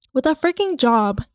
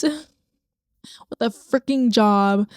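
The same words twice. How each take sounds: First: Said in the usual way. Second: "freaking" stretched very slow and heavy; drawn-out stress. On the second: Shown as a demonstration. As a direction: lean long and slow into "freaking".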